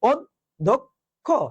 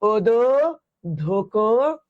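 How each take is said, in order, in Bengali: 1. d-এর পরে কোনো স্বরধ্বনি থাকে না। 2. d-এর পরে একটি অতিরিক্ত স্বরধ্বনি উচ্চারিত হয়। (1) "না, এটা হচ্ছে" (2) "মনে করো তুমি হসন্তরা দেও নাই"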